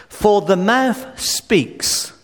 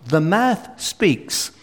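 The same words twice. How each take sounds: First: Slow, stressed delivery of mouth; drawn-out emphasis on mouth; slow emphatic. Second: Slow, stressed delivery of mouth; repeated with weight on mouth; slow repeated emphasis. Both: Shown as a demonstration. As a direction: lean on mouth, slowly. Repeats key verse slowly.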